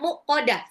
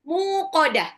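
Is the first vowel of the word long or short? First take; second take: short; long. First: The first vowel is short. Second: The first vowel is held long. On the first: The speaker calls it wrong. "salah bacanya muqadah, salah" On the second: The speaker calls it right. "mimnya panjang"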